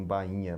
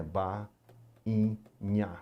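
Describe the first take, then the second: First: Said in the usual way. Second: "ba-in-nha" broken by pauses into three syllables. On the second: Shown as a demonstration. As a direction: sound out "ba-in-nha" one syllable at a time. ("ba-in-nha" separando bem as sílabas) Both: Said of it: "por exemplo".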